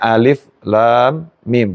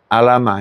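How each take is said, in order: First: Each letter is said by its full name. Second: The letters are blended into one short word. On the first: The speaker calls it right. "bacanya alif lam mim" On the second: The speaker calls it wrong. "bukan alama"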